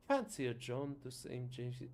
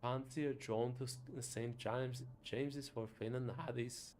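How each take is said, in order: First: Scottish attempt drifting into an Irish lilt; a lilt that lands Irish instead of Scottish; accidental Irish accent. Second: Put-on another go at a Scottish accent; retried Scottish accent. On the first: Inviting a friend out, accent slipping into Irish. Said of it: "that feels Irish". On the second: Inviting a friend to Finn and Haddie's, retried Scottish accent. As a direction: reach harder for the Scottish burr. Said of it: "which accent is Scottish".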